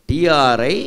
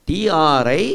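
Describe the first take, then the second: No difference in how they are said.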